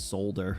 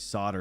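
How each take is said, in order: First: The word is said with an L sound. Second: The word is said without an L sound.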